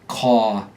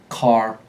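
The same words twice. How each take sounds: First: The final R is dropped and the vowel lengthened. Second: The final R is clearly pronounced with a curled tongue. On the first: "When you talk with a New York accent, ... you typically get a dropped R" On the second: "In standard American English, R endings are voiced in a muscular, retroflexed R"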